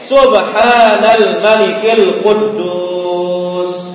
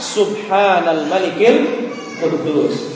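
First: It is said loudest of all. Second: It is said in a soft voice.

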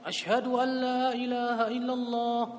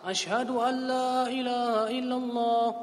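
No difference in how they are said.

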